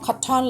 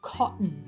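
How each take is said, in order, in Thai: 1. เสียง t ถูกปล่อยออกมาอย่างชัดเจน 2. เสียง t ถูกกักไว้ในลำคอ (1) "เราก็จะรู้แหละว่าแปลว่าสำลี" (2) "เอาไว้ในคอแบบนี้นะคะ"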